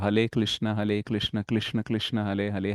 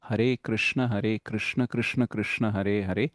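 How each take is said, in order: First: Every r sound is replaced by an l. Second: Every r sound is pronounced as a clear r. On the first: The speaker calls it wrong. "చైనాలో అయితే ర అనే పదం అనే ఉండదన్నమాట" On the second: The speaker calls it right. "So క్లియర్గా పలకాలి"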